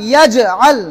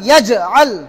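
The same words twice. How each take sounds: Both takes have the same delivery.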